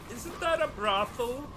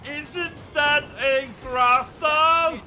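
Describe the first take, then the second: First: It is said at a normal, quieter volume. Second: It is said noticeably louder.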